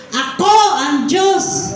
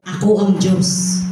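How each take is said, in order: First: Slow, higher proclamation; loud declaration. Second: Said in the usual way. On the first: Shown as a demonstration. Preacher leading the congregation to say it aloud, loud declaration. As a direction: declare it strongly, each word drawn out. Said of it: "Sabihin nga po natin, malakas".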